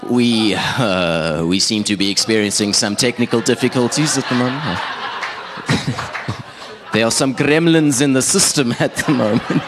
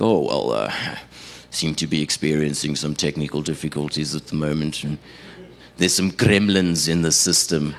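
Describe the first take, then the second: First: Cheesy DJ stalling, climbing higher at the end; cheesy radio cover-up. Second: Low, even on-air radio patter; smooth over the slip like a radio host; radio presenter covering up. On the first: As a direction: bluff through a mess-up in radio voice. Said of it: "in my cheesiest radio voice". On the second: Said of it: "they say things like". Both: Retold or imitated.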